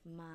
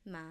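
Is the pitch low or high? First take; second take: low; low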